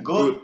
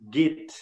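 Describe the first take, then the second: First: The name is pronounced the German way, like 'gota'. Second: The name is pronounced in a French-influenced way. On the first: The speaker calls it right. "a pronúncia em alemão ela lembra a, a pronúncia da palavra gota d'água" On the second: The speaker calls it wrong. "pronuncia-se no Brasil muitas vezes Git"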